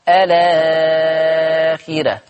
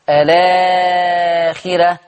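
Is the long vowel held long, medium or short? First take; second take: long; medium. First: The long vowel is held for six counts. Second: The long vowel is held for four counts.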